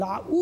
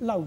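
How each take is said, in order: First: লাউ split into la-OO, u fully sounded; over-full vowel. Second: লাউ in one syllable, u just a glide; half vowel. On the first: Teacher showing what we don't say, full vowel. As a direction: pull লাউ apart into two syllables, la and u. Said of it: "বলছি না". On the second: Teacher correcting to the spoken form, half vowel. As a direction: say লাউ short, the u half sounded. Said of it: "অর্ধরূপে উচ্চারিত হচ্ছে". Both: Shown as a demonstration.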